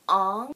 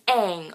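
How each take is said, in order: First: The vowel is an open 'ah' sound. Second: The vowel is like 'a' in 'cat'. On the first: This is how the film says the name. The speaker calls it wrong. "It's not his name!" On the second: This is how the show says the name. The speaker calls it right. "the kid's name is Aang"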